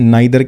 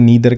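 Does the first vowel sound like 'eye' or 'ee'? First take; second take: eye; ee. First: The first vowel sounds like 'eye'. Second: The first vowel sounds like 'ee'. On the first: "pronunciation नाइदर कह लो नीदर कह लो एक ही बात है" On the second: "pronunciation नाइदर कह लो नीदर कह लो एक ही बात है"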